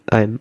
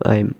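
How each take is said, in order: First: It is said as one joined word. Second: It is said as one joined word.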